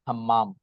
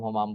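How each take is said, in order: First: The first vowel is a with a doubled m. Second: The first vowel is u with a single m. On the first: The speaker calls it right. "अभी मैंने check किया तो हम्माम ही है।" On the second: The speaker calls it wrong. "हम लोग हुमाम हुमाम बोलते रहते हैं। / मैं ही गलत बोल रहा हूँ"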